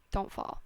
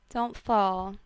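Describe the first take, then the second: First: Whispered warning. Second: Loud warning. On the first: Vlogger repeats her warning to viewers, whispered. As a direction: whisper don't fall in a hushed voice. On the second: Vlogger warns viewers off the holiday slope, loudly. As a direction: punch out don't fall as a sharp loud warning. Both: Acted.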